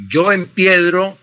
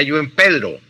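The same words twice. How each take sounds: First: "empiedro" with the diphthong, em-PIE-dro; correct form. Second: "empedro" without the diphthong, em-PE-dro; wrong form. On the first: Teacher conjugating the verb correctly for the listener: "empiedro" as em-PIE-dro. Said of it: "Jamás se dirá yo empedro". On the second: Teacher citing the wrong form to avoid: "empedro" as em-PE-dro. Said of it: "pues es un error". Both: Shown as a demonstration.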